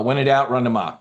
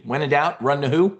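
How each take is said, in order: First: "doubt" and "run" falling, settled; teacher giving the answer; firm answer. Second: "doubt" and "who" rising like a cue for the crowd; teacher prompting the room; call and response. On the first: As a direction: land "Ma" down as the final word. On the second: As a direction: lift "who" up as a question for the audience to answer. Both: Shown as a demonstration. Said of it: "Say it with me".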